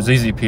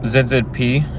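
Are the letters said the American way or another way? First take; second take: American; non-American. First: The letters are said the American way. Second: The letters are said in a non-American way.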